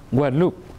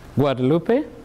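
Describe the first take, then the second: First: The name is said with a French pronunciation. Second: The name is said with a Spanish pronunciation. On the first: It names an island in the Caribbean. "which is French" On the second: It names an island off Mexico. "Guadalupe is Spanish"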